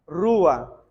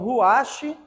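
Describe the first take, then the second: First: The word ends on a stressed vowel, no 'ch'. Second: The word ends with a harsh throaty 'ch' sound. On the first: The speaker calls it right. "dá uma força como se fosse no final" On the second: The speaker calls it wrong. "ruache é só para YouTube"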